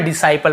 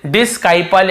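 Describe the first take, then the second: First: डिसाइपल said with no k, just s; डिसाइपल with a silent c. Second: डिस्काइपल said with a k sound after the s; डिस्काइपल with a hard k; wrong way, c sounded. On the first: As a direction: drop the c in डिसाइपल. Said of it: "केवल डिसाइपल पढ़ रहे हैं". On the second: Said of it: "ऐसे नहीं". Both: Shown as a demonstration.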